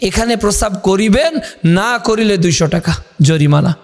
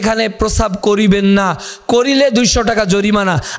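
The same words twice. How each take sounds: First: The pause comes before the word 'না'. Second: The pause comes after the word 'না'.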